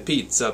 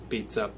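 First: It is said in a thick Italian accent. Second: It is said flat and evenly, like a robot. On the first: This is the swing rhythmic feel. "If you had a thick Italian accent" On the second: This is the straight rhythmic feel. "if you were a robot saying the word pizza"

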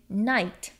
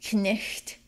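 First: The vowel is a long 'eye' sound. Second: The vowel is a short 'ih' sound. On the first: This is the later pronunciation after the vowel shift. "became an I sound" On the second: This is the older pronunciation before the vowel shift. "instead of saying knicht, That ih"

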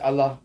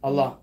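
First: The L sound is short, English style. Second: The same.

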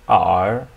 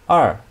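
First: The pitch dips low, then rises. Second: The pitch falls sharply from high.

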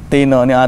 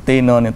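Both takes have the same delivery.

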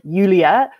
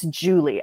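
First: The name is said with a Danish accent. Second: The name is said with an American accent. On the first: "In Danish, it's more like Julia" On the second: "But in American English, it's Julie"

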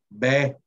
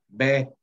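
The two takes are said the same way.

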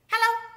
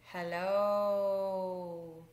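First: Hello is said fast. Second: Hello is said slowly.

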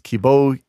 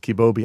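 First: The last syllable starts with an h sound. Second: The last syllable starts with a b sound. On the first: The speaker calls it wrong. "I read it out loud as kibohi" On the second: The speaker calls it right. "my wife corrected me as kibobi"

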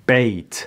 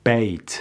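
The two takes are said the same way.

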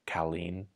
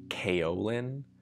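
First: It is pronounced closer to the Mandarin original. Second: It uses the common English pronunciation. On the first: "which is closer to the Mandarin than kaolin" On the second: "I've heard people say kaolin"

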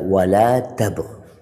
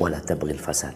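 First: The phrase stops after tabghi with no linking. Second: Tabghi links straight into the following word. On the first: "kalau berhenti di ghi, ghi-nya nggak dibaca. Dibaca wala tabghi" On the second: "Kalau disambung wala tabghil fasad"

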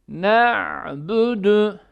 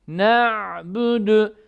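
The two takes are said the same way.

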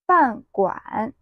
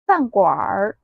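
First: The word ends without an r-colored sound. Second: The word ends with an r-colored sound.

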